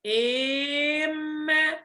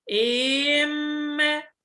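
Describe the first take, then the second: The two takes are said the same way.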